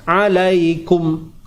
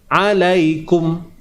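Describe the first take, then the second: Both takes have the same delivery.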